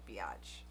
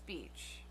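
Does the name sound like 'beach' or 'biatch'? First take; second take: biatch; beach. First: The name is said like the word biatch. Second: The name is said like the word beach. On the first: The speaker calls it wrong. "it looks like biatch" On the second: The speaker calls it right. "it's beach"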